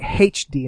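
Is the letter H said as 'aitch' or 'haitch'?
haitch. The letter H is said as haitch. This is how the British say it.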